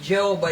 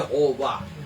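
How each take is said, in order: First: The name begins with a J sound. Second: The name begins with a Y sound. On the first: This is the American way of saying it. The speaker calls it wrong. "hindi Jehovah yun. Amerikano yun eh" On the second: This is how it is said in Hebrew. The speaker calls it right. "Yehovah yun"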